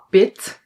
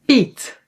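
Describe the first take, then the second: First: "pit" with a short i; "pit" said with a quick "ih"; short vowel. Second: "piet" with an "ee" sound; higher "piet" with a Dutch ie; long vowel. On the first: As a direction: keep the i in "pit" brief. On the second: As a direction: say "piet" like "peet", pitched up. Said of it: "the long E". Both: Shown as a demonstration.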